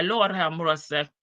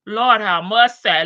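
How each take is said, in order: First: Said in the usual way. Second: "Lord" called out loud and falling; loud exclamation. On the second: Shown as a demonstration. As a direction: cry out "Lord have mercy" loudly.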